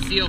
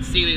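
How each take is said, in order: First: The name is said with one syllable. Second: The name is said with two syllables. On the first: This is the pronunciation the locals use. The speaker calls it right. "I'm just going to call it Seal from now on" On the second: This is the pronunciation the speaker was taught. The speaker calls it wrong. "I call it Sealy Loop"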